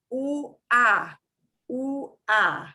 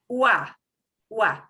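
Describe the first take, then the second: First: U, a as OO, then AH; vowels sounded separately. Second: Ua as one gliding WAH; vowels run together. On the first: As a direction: keep u and a apart. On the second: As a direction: slide u straight into a. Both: Shown as a demonstration. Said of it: "two vowels that run together".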